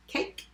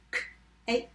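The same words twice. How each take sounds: First: Said in the usual way. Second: "K-a-k" as three separate sounds with gaps; sounded out. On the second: Shown as a demonstration. Teacher tapping cake for spellers, sounded out. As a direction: tap out "K-a-k" sound by sound. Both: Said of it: "Let's tap cake".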